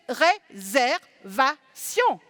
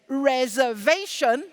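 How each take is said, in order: First: It has an even, metronome-like French rhythm. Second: It has an uneven English rhythm with one stressed syllable.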